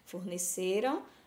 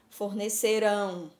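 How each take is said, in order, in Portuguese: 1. A tônica está na sílaba do meio. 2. A tônica está na sílaba final.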